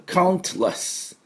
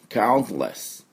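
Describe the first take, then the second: First: The T is clearly and fully released. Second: The T is weakened to a brief stop. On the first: "イギリスだと … しっかりT、音をね、出したがります" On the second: "アメリカ人が発音するとT の音が弱まりますので、count、こうやってって詰まるだけで"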